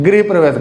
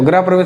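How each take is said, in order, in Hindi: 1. पहला अक्षर 'gri' की तरह बोला जाता है। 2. पहला अक्षर 'gra' की तरह बोला जाता है। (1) "क्या होता है गृह प्रवेश।" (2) "तो ग्रह प्रवेश नहीं होता"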